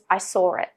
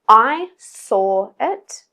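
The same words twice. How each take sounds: First: An R sound links 'saw' to 'it'. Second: The words are said with no R between them.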